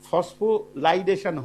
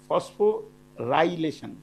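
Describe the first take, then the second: First: The middle sounds come out as 'lai-da'. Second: The middle sounds come out as 'ry-la'. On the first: The speaker calls it wrong. "আমি যখন মুখে উচ্চারণ করি তখন সে- সেটা ফসফোলাইডেশন হয়ে যায়" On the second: The speaker calls it right. "আসল উচ্চারণটা ফসফোরাইলেশন"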